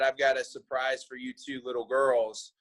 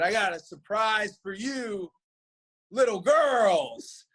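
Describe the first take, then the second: First: The phrase runs on without a pause. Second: A pause comes before "little girls." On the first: The two men are being called little girls. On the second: A troop of little girls is coming.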